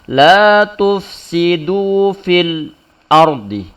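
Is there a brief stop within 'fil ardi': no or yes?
yes. A brief stop breaks up fil ardi. The speaker calls it wrong. "nggak boleh kita baca la tufsidu fil ardi"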